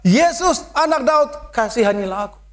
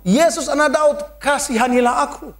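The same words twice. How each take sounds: First: A desperate cry for mercy; shouting. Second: High pleading cry; a raised plea for mercy. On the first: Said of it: "Somehow dia berteriak". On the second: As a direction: call out to Jesus, begging. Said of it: "Lalu ia berseru". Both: A narrator's reading.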